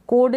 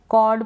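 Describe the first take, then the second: First: कोड with a closed "oh" vowel; wrong long-o reading. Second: कॉर्ड with an open "aw" vowel; open-o pronunciation. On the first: Teacher rules out a misreading, closed-o कोड. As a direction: say कोड as "kohd". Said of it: "कोड नहीं पढ़ेंगे". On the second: Teacher corrects the misreading, open-o कॉर्ड. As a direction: say कॉर्ड as "kawd". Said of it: "कॉर्ड पढ़ेंगे". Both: Shown as a demonstration.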